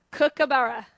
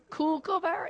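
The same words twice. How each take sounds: First: Kookaburra. said the Australian way, KOOK-uh-buh-ruh, louder with a falling end; Australian pronunciation. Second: Kookaburra? said the American way, KOOK-uh-bur; a light mock American accent on the bird name. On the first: Shown as a demonstration. Teaching Americans to say the bird, Australian pronunciation. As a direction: say the full name the way a local would. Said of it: "Let's practice". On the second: Teasing Americans, a mild American accent. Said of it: "I know you Americans say kook".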